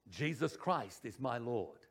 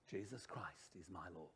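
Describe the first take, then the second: First: Said in the usual way. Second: Very hushed, low whisper; barely audible whispered declaration. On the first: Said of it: "we're going to speak it". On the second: Shown as a demonstration. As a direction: whisper it to the congregation. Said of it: "we're gonna whisper it".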